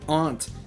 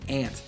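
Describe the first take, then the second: First: Aunt is said with a broad 'ah' vowel. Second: Aunt is said like 'ant', Chicago style.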